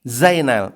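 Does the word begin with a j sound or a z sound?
z. The word begins with a buzzing z sound.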